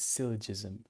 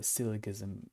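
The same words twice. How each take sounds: First: Syllogism with a soft g, like j; soft j sound in syllogism; soft-g pronunciation. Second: Syllogism with a hard g, as in give; hard g sound in syllogism; alternative pronunciation. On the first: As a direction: say syllogism as SIL-uh-jiz-um. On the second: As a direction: say syllogism as SIL-uh-giz-um. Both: Shown as a demonstration. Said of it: "I don't know how to properly say".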